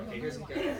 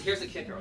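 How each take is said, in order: First: Pitched way up with a laugh; here's the kicker, half laughing; teasing excitement. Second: Said in the usual way. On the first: Shown as a demonstration. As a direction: tease the big reveal, giggling. Repeats punchline teaser, laughing.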